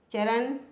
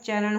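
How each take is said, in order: First: चरण ending in plain dental n, cha-ran; wrong pronunciation. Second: चरण ending in retroflex ṇ, cha-raṇ; correct pronunciation. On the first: Teacher showing the mistake, चरण closed with plain n. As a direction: end चरण on an ordinary n. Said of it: "नहीं होता है". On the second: Teacher correcting learners, चरण closed with retroflex ṇ. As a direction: curl the last n of चरण back. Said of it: "चरण होता है". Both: Shown as a demonstration.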